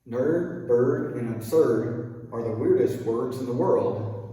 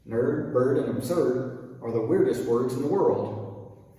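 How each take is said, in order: No difference in how they are said.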